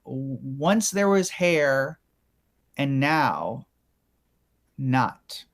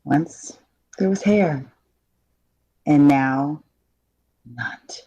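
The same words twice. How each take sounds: First: Very slow, pausing line read; slow dramatic voiceover read; slow dramatic demo. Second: Halting read with long pauses; halting line read. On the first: Shown as a demonstration. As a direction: let each phrase hang. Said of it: "just say the line". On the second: Acted. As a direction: fade the last word out. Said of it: "I thought that was believable".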